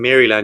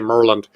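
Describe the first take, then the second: First: It is said in a nonlocal pronunciation. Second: It is said in the local pronunciation. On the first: The speaker calls it wrong. "instead of saying Maryland" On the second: The speaker calls it right. "you have to say Maryland"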